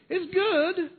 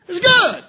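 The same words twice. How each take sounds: First: It is said with an unfinished, continuing tune. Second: It is said with exclamatory excitement.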